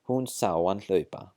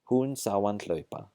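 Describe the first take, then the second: First: The h at the start of hann is dropped. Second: The h at the start of hann is dropped.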